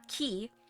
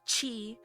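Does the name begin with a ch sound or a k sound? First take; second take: k sound; ch sound. First: The name begins with a hard k sound. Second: The name begins with a ch sound. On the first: The speaker calls it wrong. "I know it's not Ki" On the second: The speaker calls it right. "it's Chi"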